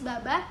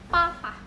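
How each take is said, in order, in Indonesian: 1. Konsonan pertama adalah b bersuara. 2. Konsonan pertama adalah p tak bersuara. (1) "tertulis babah" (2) "dalam bahasa Mandarin dibacanya papa"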